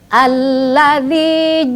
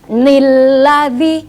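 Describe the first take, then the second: First: The word begins with a plain vowel sound. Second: The word begins with an added n sound. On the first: The speaker calls it right. "tapi sudah menjadi alladzi ja'ala" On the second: The speaker calls it wrong. "tidak dibaca nilladzi"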